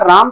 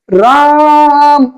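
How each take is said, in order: First: It is said briefly at normal loudness. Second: The vowel is drawn out and shouted.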